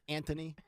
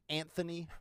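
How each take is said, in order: First: The middle consonant is a plain 't' sound. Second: The middle consonant is a 'th' sound. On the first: This is the form that drops the H. The speaker calls it wrong. "no H in his first name" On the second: This is the expected form of the name. The speaker calls it right. "Isn't it supposed to be Anthony"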